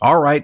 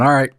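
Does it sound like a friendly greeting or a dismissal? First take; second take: greeting; dismissal. First: It sounds like a friendly greeting. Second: It sounds like sending someone away.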